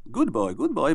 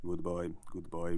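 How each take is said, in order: First: Bright, higher praising tone like to a dog; sing-song praise for a good dog; praising intonation. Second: Said in the usual way. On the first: Shown as a demonstration. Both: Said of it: "without the praising intonation".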